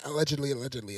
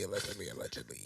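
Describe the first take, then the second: First: Said in the usual way. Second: Much lower, quiet and deep; deep mock lawyer voice. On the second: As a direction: drop into a deep, hushed disclaimer.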